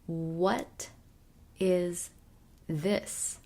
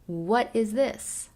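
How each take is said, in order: First: The sentence is said slowly and carefully. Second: The sentence is said at normal speed.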